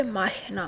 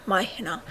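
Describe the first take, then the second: First: مای هنا with the syllables split as مای هِنا; the wrong way, مای هِنا; wrong form. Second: The right way, مای هنا run together; right form. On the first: (مای هِنا، تلفظ غلط) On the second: (مای هنا، تلفظ درست) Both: Shown as a demonstration. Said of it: "مای هنا نه".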